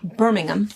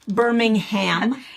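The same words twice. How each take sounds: First: It is said with a British pronunciation. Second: It is said with an American pronunciation. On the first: The speaker calls it right. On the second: The speaker calls it wrong.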